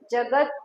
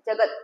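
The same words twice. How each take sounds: First: The final t is said fully, with a vowel. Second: The final t is light, without a vowel. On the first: The speaker calls it wrong. "जगत नहीं है" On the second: The speaker calls it right. "त पे हल्का सा ले लेना"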